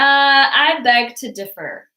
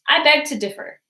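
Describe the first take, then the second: First: It is said in a sarcastic tone. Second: It is said in a light tone. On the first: "a more sarcastic way" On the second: "in a lighter way"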